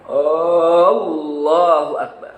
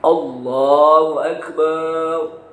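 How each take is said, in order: First: The opening A sound is drawn out long. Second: The bar syllable is drawn out long. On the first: It asks whether God is the greatest. "Tidak dibaca Allahu Akbar... ada huruf hamzah istifham" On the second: It says God is a drum. "Apalagi kalau barnya panjang"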